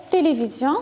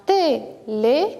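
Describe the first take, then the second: First: Said in the usual way. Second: "télévision" in four separate beats, té - lé - vi - sion; split into syllables. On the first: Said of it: "nous avons dit qu'on a quatre syllabes". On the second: Shown as a demonstration. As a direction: pause after each syllable of "télévision". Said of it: "on a quatre syllabes". (« télévision » découpé en quatre syllabes)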